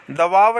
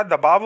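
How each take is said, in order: First: दबाव as "da-vaav"; wrong v sound. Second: दबाव as "da-baav"; correct b sound. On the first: Teacher showing students the mistake, v substituted. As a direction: put v for b in दबाव. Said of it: "नहीं होता". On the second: Teacher giving students the right form, clear b. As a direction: close the lips for b in दबाव. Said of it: "होता है". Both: Shown as a demonstration.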